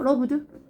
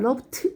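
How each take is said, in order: First: The word ends with a d sound. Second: The word ends with a t sound. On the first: The speaker calls it right. "그냥 러브드" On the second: The speaker calls it wrong. "러브트 이게 아니라"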